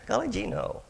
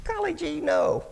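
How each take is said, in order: First: High, lightly goofy replay of his own answer; goofy gee-whiz voice. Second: Much higher, naive cartoonish squeak; goofy gee-whiz voice. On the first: Retold or imitated. Retelling his reply to the cook, lightly goofy high voice. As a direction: echo the naive kid again, a bit less squeaky. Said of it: "you sound like Elmer Fudd". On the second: Teen counselor answering the pretty cook, high goofy Elmer Fudd-like voice. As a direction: play the dopey kid caught off guard. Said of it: "Literally, I said that".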